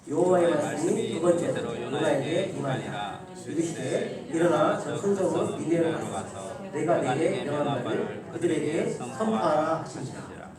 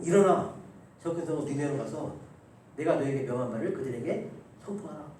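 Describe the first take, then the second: First: Slow, measured unison Bible reading; scripture reading. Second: Said in the usual way. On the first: Acted. Pastor leading the church in reading Jonah, slow recitation. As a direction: recite God's command slowly and solemnly. Congregation reads scripture aloud. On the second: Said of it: "그리고".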